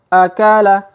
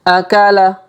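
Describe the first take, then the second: Both takes have the same delivery.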